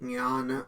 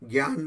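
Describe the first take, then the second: First: The word is said without a g sound. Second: The word is said with a g sound. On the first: The speaker calls it right. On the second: The speaker calls it wrong.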